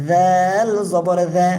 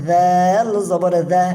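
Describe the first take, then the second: The two takes are said the same way.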